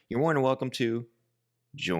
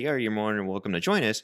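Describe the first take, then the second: First: It is said with a pause near the end. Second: It is said smoothly without a pause.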